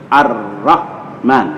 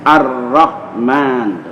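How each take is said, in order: No difference in how they are said.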